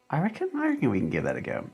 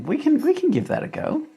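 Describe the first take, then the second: First: Said in the usual way. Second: "we can give that a go" in a very high, put-on squeak; silly high voice. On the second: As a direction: play a cartoonish character agreeing. Playful reply to viewer suggestion.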